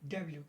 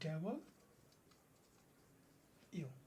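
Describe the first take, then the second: First: The letter name is run together as one word. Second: The letter name is said as two separate parts. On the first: This is how people here commonly say it. The speaker calls it wrong. "আমরা এখানে এটাকে বলি কি ডাব্লিউ" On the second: This is the proper pronunciation. The speaker calls it right. "এটার উচ্চারণ হলো কি তা কি ডাবল ইউ"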